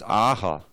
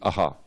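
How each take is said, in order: First: The first vowel is held long. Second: The first vowel is kept short. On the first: "you have to still pronounce that long A when it's a long A" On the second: "if that long A was a short A"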